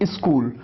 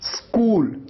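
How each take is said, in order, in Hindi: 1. s से पहले स्वर ध्वनि आती है। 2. शब्द सीधे s से शुरू होता है। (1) "ऐसे कहते हैं स्कूल, आप ई लगा देते हैं" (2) "आपको शुरुआत करना है आधे स से"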